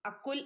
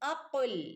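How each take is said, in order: First: The consonant is a plain front 'k' sound. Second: The consonant is a deep back 'q' sound. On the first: The speaker calls it wrong. "അക്കുൽ എന്ന് ഓതരുത്" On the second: The speaker calls it right. "അഖുൽ ഖാഫാണ്"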